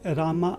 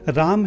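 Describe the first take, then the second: First: The name ends with a long final 'a' vowel. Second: The name ends without a long final vowel. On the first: The speaker calls it wrong. "रामा नहीं है" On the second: The speaker calls it right. "राम है"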